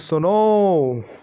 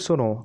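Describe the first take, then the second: First: The vowel is drawn out about three times longer. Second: The vowel is said at normal length.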